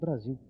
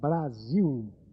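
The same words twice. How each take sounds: First: The word is articulated with tight lips, less clearly. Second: The word is articulated with full, clear lip movement. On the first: The speaker calls it wrong. "ele pode pronunciar o Brasil de uma forma diferente, por isso Brasil" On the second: The speaker calls it right. "Se eu disser Brasil, é bonito, porque o tipo de lábio meu permite que eu pronuncie todas estas formas labiais"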